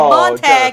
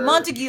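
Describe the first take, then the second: First: The name ends with a short 'tag' sound. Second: The name ends with a 'gyoo' sound. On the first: The speaker calls it wrong. "I said Montag instead of Montague" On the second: The speaker calls it right. "instead of Montague"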